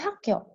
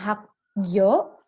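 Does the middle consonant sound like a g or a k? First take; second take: k; g. First: The middle consonant sounds like a hard k. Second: The middle consonant sounds like a soft g. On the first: The speaker calls it right. "Pakai K aja" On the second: The speaker calls it wrong. "bukan hakyo"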